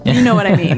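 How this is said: It is said as a statement.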